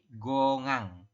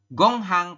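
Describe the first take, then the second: First: No h sound is pronounced in the middle. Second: An h sound is pronounced in the middle. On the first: The speaker calls it right. "tapi gongang" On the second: The speaker calls it wrong. "bukan gonghang"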